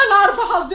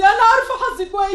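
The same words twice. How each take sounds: First: High, choked with tearful laughter; a broken half-laugh as she gives up; bitter despair. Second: Higher still, tearful laughing sob; breaking down. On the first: Daughter lamenting her luck to mother, choked. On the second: Daughter to mother about her fate, breaking down. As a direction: let it crack further on the repeat. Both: Acted.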